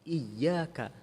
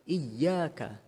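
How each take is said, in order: No difference in how they are said.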